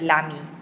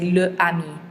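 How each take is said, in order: First: The article is run together with the noun. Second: The article is said separately before the noun. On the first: The speaker calls it right. "they would just run it together" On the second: The speaker calls it wrong. "they would never say le ami"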